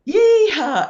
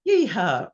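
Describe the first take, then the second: First: High, very loud crowd whoop; full-voiced high holler; screamed out loud. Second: A light, high-spirited yeehaw; brief cowboy whoop, only moderately raised; retold whoop. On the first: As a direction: let rip a long yeehaw like a cheering crowd. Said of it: "they just screamed out loud". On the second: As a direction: toss out a cheery yeehaw. Band's upbeat mood before playing.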